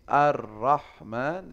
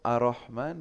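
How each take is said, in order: First: The r sound is held long and doubled. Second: The r sound is short and single. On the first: The speaker calls it right. "Ar-Rahman itu ada tasdid gitu" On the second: The speaker calls it wrong. "Ar-Rahman berarti nggak ada tasdid"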